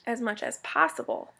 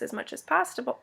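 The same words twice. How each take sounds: First: Possible said clearly as pos-si-ble; careful possible. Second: Possible slurred toward pasta; garbled possible. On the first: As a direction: possible corrected, each syllable clear. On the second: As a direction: possible tripped over, half said like pasta. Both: Real, not acted. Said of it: "I must have pasta on the brain".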